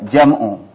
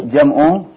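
Both takes have the same delivery.

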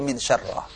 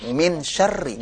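First: The last word ends in an 'ah' vowel. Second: The last word ends in an 'i' vowel. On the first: The speaker calls it wrong. "Gak bisa dibaca min syarrah" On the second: The speaker calls it right. "kalau ada huruf jar, depannya apa? Kasrah"

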